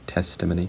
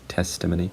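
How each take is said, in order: First: One stressed syllable, with a schwa in the middle. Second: One stressed syllable, with a schwa in the middle.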